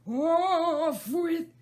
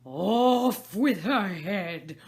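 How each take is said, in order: First: Even higher, shrieking rage; furious screaming. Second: Loud, slow savage scream; furious screaming. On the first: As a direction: screech it, cut off mid-order. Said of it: "began screaming". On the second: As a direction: rage like a wild beast. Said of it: "like a wild beast, began screaming". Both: Acted.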